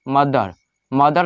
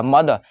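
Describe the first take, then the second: First: मदर with the r clearly sounded at the end; wrong pronunciation. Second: मदर with a silent r, ending on the open vowel; correct pronunciation. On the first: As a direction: say मदर rolling the final r. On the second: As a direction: say मदर dropping the r. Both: Shown as a demonstration. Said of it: "यहाँ पे आर silent रहेगा".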